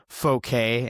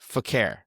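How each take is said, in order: First: The name is said ending in an 'ay' sound. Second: The name is read as spelled, ending in 'er'. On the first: "it's probably like Fouquet" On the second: "when I see F O K K E R, what else do I do but but call the man Fokker?"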